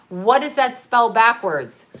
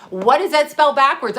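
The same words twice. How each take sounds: First: Said in the usual way. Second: "What does that spell backwards?" again, louder and higher, with "spell" punched; emphatic repeat. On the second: Retold or imitated. Retelling the guy's riddle to her viewers, louder and insistent. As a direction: push the question harder the second time.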